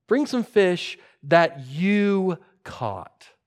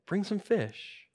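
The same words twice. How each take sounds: First: Very slow, weighty "you caught"; stress on YOU. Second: Soft, slow, raised pitch; understated quoted request. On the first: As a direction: spell it out slowly, leaning on "you". Quote repeated, stressing whose catch. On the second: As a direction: quote it gently, without pressing. Jesus quoted, first take. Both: Retold or imitated.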